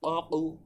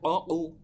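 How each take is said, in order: Both takes have the same delivery.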